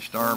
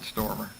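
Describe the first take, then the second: First: The first vowel sounds like the one in 'star'. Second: The first vowel sounds like the one in 'storm'. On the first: The speaker calls it right. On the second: The speaker calls it wrong.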